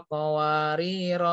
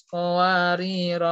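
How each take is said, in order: The two takes are said the same way.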